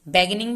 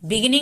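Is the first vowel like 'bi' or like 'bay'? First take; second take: bay; bi. First: The first syllable is said as 'bay'. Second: The first syllable is said as 'bi'. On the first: The speaker calls it wrong. "बैगिनिंग भी नहीं बोलते" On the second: The speaker calls it right. "बिगिनिंग ही बोलते हैं"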